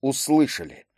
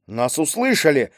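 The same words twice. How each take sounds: First: Subdued, falling exclamation; restrained, slightly softer acknowledgement; less joyful. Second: Mildly glad cry; understated happy announcement; joyful exclamation. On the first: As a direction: confirm it without much joy. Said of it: "далеко не так радостно произнёс". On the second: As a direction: exclaim it with restrained joy. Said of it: "радостно воскликнул Майский". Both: A narrator's reading.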